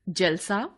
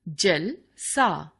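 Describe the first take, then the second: First: It is said as one unbroken word. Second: It has a slight break after जल. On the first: A celebration. "उत्सव" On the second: Like water. "जल की तरह"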